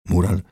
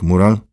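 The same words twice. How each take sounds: First: Said in the usual way. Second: Loud rising jab on Mural; loud scornful question; haughty Lichutki. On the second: Acted. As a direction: needle him with the name. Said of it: "mówił innym głosem".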